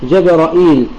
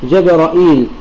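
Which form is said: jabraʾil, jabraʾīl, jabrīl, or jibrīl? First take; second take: jabraʾīl; jabraʾīl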